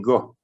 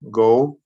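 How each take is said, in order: First: The final vowel is short and clipped. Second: The final vowel is full and drawn out. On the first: The speaker calls it right. "you'd say go" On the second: The speaker calls it wrong. "Instead of saying"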